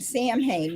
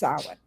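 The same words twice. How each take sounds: First: The word sounds like 'Sam Hain'. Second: The word does not sound like 'Sam Hain'. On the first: The speaker calls it wrong. "like saying Samhain" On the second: The speaker calls it right. "when you know it's Samhain"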